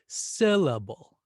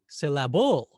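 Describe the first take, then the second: First: The stress is on the first syllable. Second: The stress is on the third syllable. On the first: The speaker calls it right. "let's stress syllable. We'll exaggerate it" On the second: The speaker calls it wrong. "What about the third syllable?"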